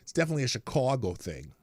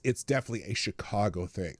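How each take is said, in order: First: It is said in a Chicago accent. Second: It is said in the speaker's plain accent.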